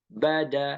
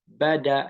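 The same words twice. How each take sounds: No difference in how they are said.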